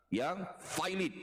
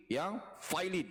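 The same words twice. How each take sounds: The two takes are said the same way.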